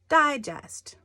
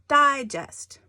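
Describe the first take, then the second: The two takes are said the same way.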